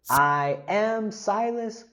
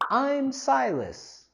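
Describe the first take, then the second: First: I am is said as two full words. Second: I am is joined into one short syllable. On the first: "la contracción de I am" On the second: "la contracción con I'm"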